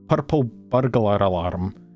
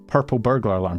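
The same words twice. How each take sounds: First: It is said in a Scottish accent, R rolled. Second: It is said without rolled R sounds.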